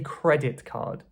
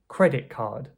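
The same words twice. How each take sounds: First: The t in credit is fully pronounced. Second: The t in credit turns into k. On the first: "Most people wouldn't wouldn't say" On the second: "They would say"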